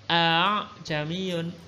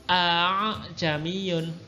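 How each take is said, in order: Both takes have the same delivery.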